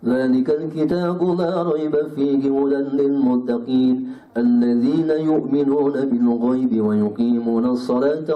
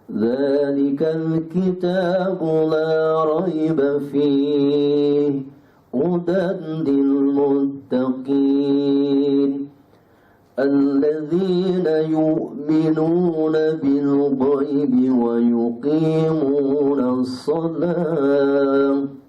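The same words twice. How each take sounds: First: It is recited quickly. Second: It is recited slowly and deliberately. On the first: It suits completing a full reading of the Quran. "Kalau hadr begini" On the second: It suits reading alone while reflecting on the meaning. "Itu tartil"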